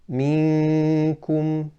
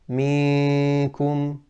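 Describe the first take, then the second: First: The noon sound comes mainly through the nose. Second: The noon sound comes mainly from the mouth. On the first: The speaker calls it right. "correct is to say minkum" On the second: The speaker calls it wrong. "incorrect is to say minkum"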